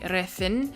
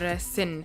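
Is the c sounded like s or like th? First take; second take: th; s. First: The c is sounded like th. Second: The c is sounded like s. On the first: This is how it is said in Spain. "in Spain they say the C as th" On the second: This is how it is said in Colombia. "they pronounce the C as a S sound"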